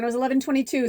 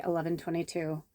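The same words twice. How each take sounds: First: Pleased discovery. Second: Said in the usual way. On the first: Real, not acted. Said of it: "ooh, when I looked down". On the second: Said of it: "that's our angel number".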